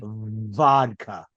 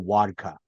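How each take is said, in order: First: The word starts with a clear V sound. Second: The word does not start with a V sound. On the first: "You'll find a way to use the V word" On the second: "you're not going to ask for vodka"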